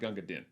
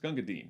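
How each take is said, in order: First: The last word has a short i vowel. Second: The last word has a long ee vowel. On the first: The speaker calls it wrong. "not Gunga Din. Don't say Gunga Din" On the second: The speaker calls it right. "it rhymes with words like queen. So it's Dean"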